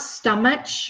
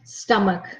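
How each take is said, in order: First: The middle consonant is a ch sound. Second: The middle consonant is a k sound. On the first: The speaker calls it wrong. "it's not stomach, not ch" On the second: The speaker calls it right. "the sound is a hard sound like a K"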